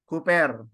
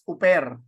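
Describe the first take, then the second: First: The word starts with an h sound. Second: The word starts with no h sound. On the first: The speaker calls it right. "this is a rough breathing word ... pronounced as hooper" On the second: The speaker calls it wrong. "it is not pronounced as uper"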